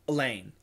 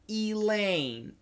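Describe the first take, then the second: First: The first vowel is reduced to a schwa. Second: The first vowel is fully pronounced. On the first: This is the everyday form. "With a schwa" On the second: This is the careful form. "So perfect pronunciation"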